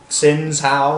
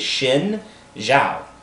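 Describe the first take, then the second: First: The name starts without an 'sh' sound. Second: The name starts with an 'sh' sound. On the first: The speaker calls it wrong. "I'm tired of people saying Xin Zhao" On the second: The speaker calls it right. "It is Xin Zhao. X is pronounced as an S H in Chinese"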